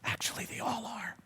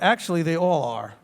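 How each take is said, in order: First: It is said at normal, softer volume. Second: It is said louder, with more force.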